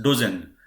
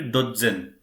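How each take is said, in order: First: Dozen with the Z sounded only once; English single Z. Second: Dotzen with a hard TZ in the middle; German double consonant. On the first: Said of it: "the Z will be only once pronounced". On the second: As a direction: say Dotzen as DOT-zen, both consonants sounded. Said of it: "But in German". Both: Shown as a demonstration.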